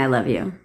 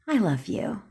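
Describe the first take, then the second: First: It sounds flat and dismissive. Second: It sounds warm and sincere. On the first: The speaker does not really mean the affection. "Same three words, two totally different meanings" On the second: The speaker truly means the affection. "And you're like, oh, I love you too"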